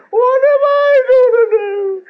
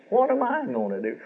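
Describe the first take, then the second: First: High, loud, drawn-out mock wail, slowed down; mock self-pity wail. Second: Mock self-pity. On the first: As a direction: whine it like a widow sorry for herself, stretching every word. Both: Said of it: "selfish tears".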